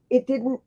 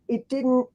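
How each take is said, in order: Both takes have the same delivery.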